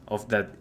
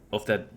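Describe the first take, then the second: No difference in how they are said.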